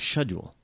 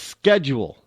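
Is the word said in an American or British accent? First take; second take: British; American. First: It is said the British way, with an sh sound. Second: It is said the American way, with a k sound. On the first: "it sounds so uppity and pretentious when you say schedule" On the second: "we say uh, a schedule"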